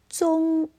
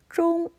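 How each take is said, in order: First: The first sound is made without curling the tongue. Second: The first sound is made with a curled tongue. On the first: "粤语中的发音跟普通话的区别就是没有卷舌音" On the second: "普通话是中"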